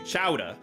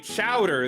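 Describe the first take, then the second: First: The final r is dropped, New England style. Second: The final r is pronounced.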